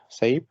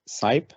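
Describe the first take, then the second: First: "Saip" with an ay vowel, like "sape"; alternative pronunciation guess. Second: "Saip" with a long eye vowel, like "sipe"; first pronunciation guess. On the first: Offering another surname guess, "Saip" said like "sape". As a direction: say "Saip" to rhyme with "tape", lifted at the end. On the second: Unsure of an opponent's surname, "Saip" said like "sipe". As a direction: say "Saip" to rhyme with "type". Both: Shown as a demonstration. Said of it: "I don't know how his".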